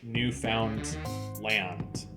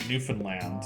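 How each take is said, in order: First: It is said as the separate parts 'newfound land'. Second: It is said the local Canadian way. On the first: This is how the name looks on the page. "it's clearly like newfound land" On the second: This is how local people say the name. "Canadians pronounce it Newfoundland"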